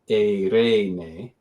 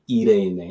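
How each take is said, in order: First: It is said in the Erasmian pronunciation. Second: It is said in the Koine-style pronunciation. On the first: "which in Erasmian might be" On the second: "epsilon iota we know was e for actually many centuries"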